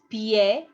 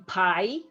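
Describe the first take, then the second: First: "pie" said the Spanish way, pee-EH; "pie" as the Spanish word for foot, pi-e; Spanish pronunciation. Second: "pie" said the English way, like the dessert; wrong English reading of "pie"; English pronunciation. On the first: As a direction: say "pie" with both vowels sounded, pyeh. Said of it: "I'm not saying pie, it's pie". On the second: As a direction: say "pie" as one English syllable, rhyming with "eye". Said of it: "I'm not saying pie". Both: Shown as a demonstration.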